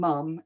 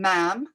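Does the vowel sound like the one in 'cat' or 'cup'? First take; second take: cup; cat. First: The word has a short 'u' vowel, as in cup. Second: The word has an open 'a' vowel, as in cat. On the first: This is the southern, London way of saying it. "whereas I would call my mum mum, living in London" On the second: This is the northern, Newcastle way of saying it. "someone who lives in Newcastle ... they will call their mum ma'am, like M A M"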